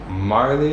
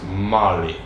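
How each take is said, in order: First: The name sounds like Marley. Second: The name sounds like Molly. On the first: The name is read as spelled by an outsider. The speaker calls it wrong. "instead of saying like Marley" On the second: The name is said the way the family says it. The speaker calls it right. "it's Molly"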